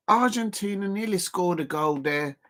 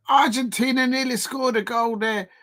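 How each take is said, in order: First: Said in the usual way. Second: Excited. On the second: Real, not acted. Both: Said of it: "repeated calmly right after".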